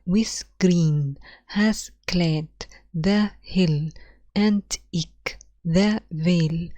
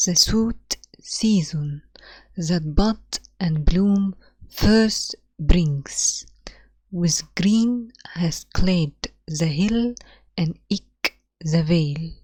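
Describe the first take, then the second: First: Very slow, syllable by syllable; scanning the meter. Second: Slow, hushed poetry recital; reading the poem aloud. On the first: Teacher scans line two slowly for students, marking each beat. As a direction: beat out "With green has clad" foot by foot. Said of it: "لو بصينا على line two". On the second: Teacher reads the sonnet's opening lines to students, slow and hushed. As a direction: read the lines slowly for the class. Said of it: "طب تعالوا نشوف the first two lines". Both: Shown as a demonstration.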